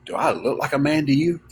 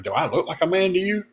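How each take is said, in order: First: Said in the usual way. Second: Higher, offended rising question; indignant mock question. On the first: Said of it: "Person looked at him and said". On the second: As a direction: play the insulted customer. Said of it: "he was like".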